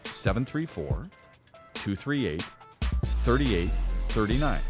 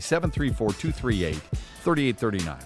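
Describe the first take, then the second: First: It is said at a slower pace. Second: It is said at a quicker pace.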